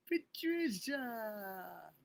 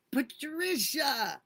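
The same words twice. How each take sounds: First: Slow, tender, fading name. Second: High, loud, slow wail of a name; crying out a name. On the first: Streamer savoring a supporter's name, slow and tender. Softer drawn-out repeat. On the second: Streamer overwhelmed to see her supporter, loud high cry. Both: Real, not acted.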